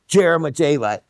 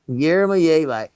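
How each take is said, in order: First: The word begins with a hard J sound. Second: The word begins with a plain Y sound. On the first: The speaker calls it wrong. "with the hard J, which is absolutely the wrong" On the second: The speaker calls it right. "it's Yermolyevi"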